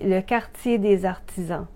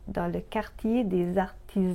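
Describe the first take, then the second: First: The t before i sounds like ts, Québécois-style. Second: The t before i is a plain t.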